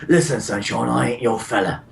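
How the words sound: It is said in a Cockney accent.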